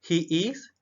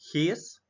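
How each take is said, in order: First: It is said as two separate full words. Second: It is said as one contracted syllable.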